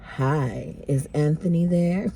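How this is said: It is said in a sexy voice.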